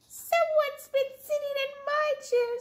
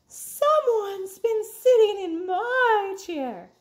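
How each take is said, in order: First: A high squeaky Baby Bear voice. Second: A gasping, startled Mama Bear voice.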